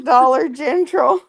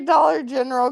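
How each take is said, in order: First: General is said as Gentral, with an added t. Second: General is said plainly, without an added t. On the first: This is how people back home say it. "where I'm from, they say Dollar General" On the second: This is how the speaker says it. "I don't say Dollar General"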